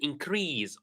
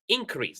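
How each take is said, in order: First: The stress is on the second syllable. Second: The stress is on the first syllable. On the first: It is used as a verb. "so rease" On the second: It is used as a noun. "the first one is ink"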